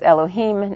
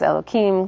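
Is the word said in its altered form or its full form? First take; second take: full; altered. First: The word is pronounced in its full form. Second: The word is pronounced in an altered form. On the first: It refers to other gods. "when we say Elohim and we pronounce the whole thing out" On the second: It refers to God. "not as Elohim"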